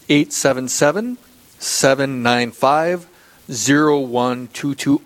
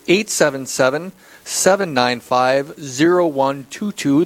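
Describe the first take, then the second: First: The number is read at a slower pace. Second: The number is read at a faster pace.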